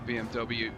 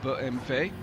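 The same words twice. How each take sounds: First: The letters are said with English pronunciation. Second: The letters are said with German pronunciation.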